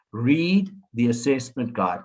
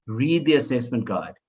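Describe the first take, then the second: First: Slow and deliberate, leaning on read; firm insistence. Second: Said in the usual way. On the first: Shown as a demonstration. Lecturer urging new teachers to read, slow and firm. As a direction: spell out each word so it lands. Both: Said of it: "I can't stress this enough".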